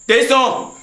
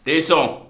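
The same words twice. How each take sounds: First: Higher, louder insistent call. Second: Said in the usual way. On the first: Acted. Master calls the servant Tesson again, louder and impatient.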